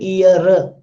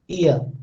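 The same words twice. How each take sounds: First: Every sound, including the final one, is pronounced. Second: The final sound is dropped. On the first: The speaker calls it wrong. "I am not saying ear. ... In Hindi you need to pronounce every sound" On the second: The speaker calls it right. "the last sound is dropped here"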